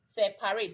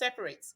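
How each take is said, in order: First: The middle syllable is said fully, like 'pa'. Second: The middle syllable is weak and unclear. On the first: It follows the spelling letter by letter. The speaker calls it wrong. "If you're pronouncing it as it is" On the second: It is how the word is normally said. The speaker calls it right. "but it's pronounced separate"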